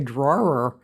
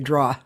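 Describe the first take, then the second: First: It is said in a general American way. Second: It is said in a Boston accent. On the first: This is how most people say it. "most people say drawer" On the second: This is the speaker's own Boston way. "I just say draw"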